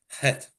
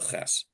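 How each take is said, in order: First: It starts with a soft, breathy h sound. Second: It starts with a harsh, scraping ch sound. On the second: "the way we press pr pronounce the ches"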